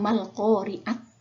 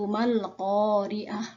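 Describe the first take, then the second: First: The word ends with a t sound. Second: The word ends with an h sound. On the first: The speaker calls it wrong. "bukan bacanya mal-qari'at" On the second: The speaker calls it right. "bunyinya berubah menjadi ha"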